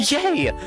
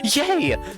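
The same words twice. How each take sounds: First: The word sounds bright and happy. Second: The same.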